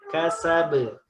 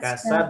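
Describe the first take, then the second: First: The final b is released with a short bounce. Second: The final b is cut off without release. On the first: The speaker calls it right. "tapi kasabe" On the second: The speaker calls it wrong. "bukan kasab"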